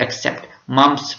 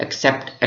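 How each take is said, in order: First: Said in the usual way. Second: Breathy whisper of the word accept; whispered except. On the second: Shown as a demonstration. Teacher stresses the exception.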